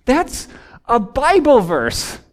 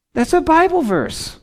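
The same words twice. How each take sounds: First: Slow, stressing Bible; a slow, weighty "That's a Bible verse."; emphatic statement. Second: Higher, stress on "a"; pitched up, insisting it really is "a Bible verse"; raised emphatic repeat. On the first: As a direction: lean on the word "Bible", slow and firm. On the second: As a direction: hit "a" hard: "That's A Bible verse.". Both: Shown as a demonstration.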